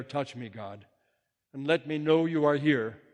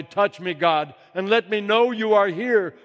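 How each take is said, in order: First: Cry of despair. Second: High, loud cry of joy; joyful cry. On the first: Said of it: "I cried out in despair". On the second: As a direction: call out to God overjoyed. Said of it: "I cried out in joy". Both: Acted.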